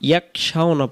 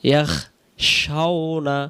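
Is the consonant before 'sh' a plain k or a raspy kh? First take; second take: plain k; raspy kh. First: The consonant before sh is a plain k. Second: The consonant before sh is a raspy kh. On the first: The speaker calls it wrong. "এই খ অক্ষরটা কাব অক্ষরে রূপান্তরিত হয়" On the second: The speaker calls it right. "খয়ের মতো ভেঙে উচ্চারণ হবে ইয়াখ"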